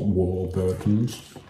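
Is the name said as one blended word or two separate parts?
two parts. The name is split into two separate parts. The speaker calls it wrong. "It's not like a double word"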